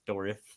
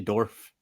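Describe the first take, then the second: First: The name is said as two syllables. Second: The name is said as one syllable. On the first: The speaker calls it right. "It's Dorif" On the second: The speaker calls it wrong. "I don't say Dorf like a like a dwarf"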